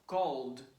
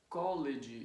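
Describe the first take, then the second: First: The word is said as one syllable. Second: The ending is a separate extra syllable. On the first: The speaker calls it right. "one syllable too" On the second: The speaker calls it wrong. "we end up pronouncing like college, and it's wrong"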